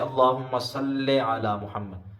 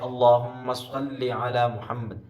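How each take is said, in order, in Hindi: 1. Salli का अंत 'e' की आवाज़ से होता है। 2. Salli का अंत 'i' की आवाज़ से होता है। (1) "मजहूल तरीके से पढ़ दिया" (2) "लाम के नीचे जेर है"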